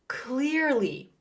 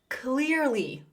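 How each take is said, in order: Both takes have the same delivery.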